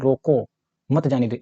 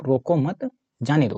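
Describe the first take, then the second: First: रोको, then a clear break before मत जाने दो; pause after रोको. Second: रोको मत joined, then a break before जाने दो; pause after मत. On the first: Teacher showing the comma's effect, pause after रोको. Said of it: "मैंने अल्प विराम लगा दिया". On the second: Teacher moving the comma, pause after मत. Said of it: "और यहाँ लगा दिया". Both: Shown as a demonstration.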